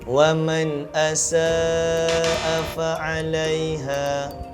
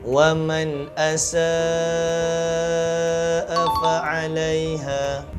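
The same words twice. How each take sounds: First: The vowel before the hamza is held short. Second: The vowel before the hamza is held long. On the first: The speaker calls it wrong. "Elakkan daripada membaca begini" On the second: The speaker calls it right. "dibaca dengan kadar empat atau lima harakat"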